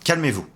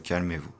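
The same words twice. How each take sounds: First: It is said in a firm, scolding tone. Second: It is said in a gentle, soothing tone. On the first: The listener is being told to settle down and move on. "recadrer quelqu'un" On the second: The listener is being reassured that no harm is meant. "on sait que vous passez une expérience traumatique actuellement"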